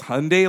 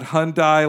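First: The last syllable rhymes with 'day'. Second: The last syllable sounds like 'die'. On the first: The speaker calls it right. "it's Hyundai like Sunday" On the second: The speaker calls it wrong. "not Hyundai like Sundai"

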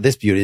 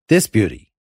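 First: The stress falls on the word beauty. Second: The stress falls on the word this. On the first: It is the plain title phrase. The speaker calls it wrong. "It's actually not This Beauty" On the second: It points at a particular beauty here and now. The speaker calls it right. "It's indexical"

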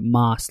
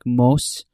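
First: The vowel sounds like the one in Spanish 'más'. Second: The vowel sounds like the one in 'moss'. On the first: This is how the family says the name. The speaker calls it right. "you actually pronounce it Mas, like Quiero Mas" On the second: This is how people in the other country said the name. The speaker calls it wrong. "they would say my last name like Mos"

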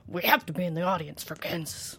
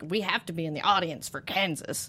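First: It is said in a put-on gruff voice. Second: It is said in the speaker's normal voice.

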